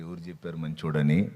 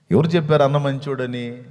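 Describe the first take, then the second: First: Said in the usual way. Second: Louder, indignant repeat of the question; challenging retort. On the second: Retold or imitated. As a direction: throw the question back hard. (గట్టిగా నిలదీసే ప్రశ్న)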